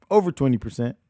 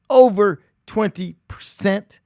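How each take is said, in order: First: Said in the usual way. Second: "Over" louder, slower, rising in outrage; stress on Over. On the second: Shown as a demonstration. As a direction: hit "Over" hard and drag it up. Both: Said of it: "Ask what their interest rates are".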